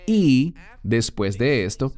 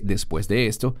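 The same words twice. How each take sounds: First: Y leaned on at the start; stress on y. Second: Said in the usual way. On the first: Shown as a demonstration. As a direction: lean on the word "Y" before "después de esto". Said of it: "la conjunción "y". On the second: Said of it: "antes de "después de esto".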